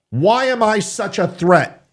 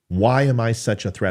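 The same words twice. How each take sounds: First: It is said in a harsh, aggressive way. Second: It is said in a nice, gentle way.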